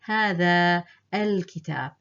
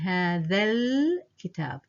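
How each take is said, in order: First: The long vowel and following letter are sounded. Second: The two letters are dropped, words run together. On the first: The speaker calls it wrong. "I'm not saying هذا الكتاب" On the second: The speaker calls it right. "I've dropped both letters, and that way you sound more natural"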